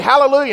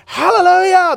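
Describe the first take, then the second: First: Said in the usual way. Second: High, loud hallelujah shout; imitating crowd yelling. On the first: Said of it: "you go up there and you say". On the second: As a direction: yell it back like a whole congregation. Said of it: "They're yelling and they're jumping".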